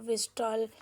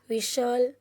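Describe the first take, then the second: First: The t sound is pronounced in the middle. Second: The t sound is silent in the middle. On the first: The speaker calls it wrong. "हम ऐसे नहीं बोलते ना" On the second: The speaker calls it right. "टी letter है वो silent है"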